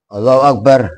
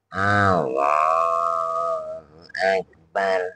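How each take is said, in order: First: It is said quickly, with only a brief pause. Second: It is said slowly, like an old man.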